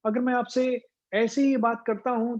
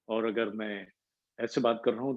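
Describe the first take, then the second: First: The voice is pitched high. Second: The voice is pitched low.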